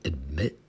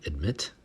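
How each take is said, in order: First: The final T sound is left off. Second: The final T sound is clearly pronounced. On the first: "without the T" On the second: "with the T"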